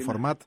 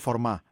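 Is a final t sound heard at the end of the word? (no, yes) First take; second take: yes; no. First: The word ends with a clear t sound. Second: The word ends on the vowel, no t. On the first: The speaker calls it wrong. "δεν θα μας πούνε και τίποτα άμα το πούμε φορμάτ" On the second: The speaker calls it right. "το σωστό είναι φορμά. Είναι χωρίς το ταφ"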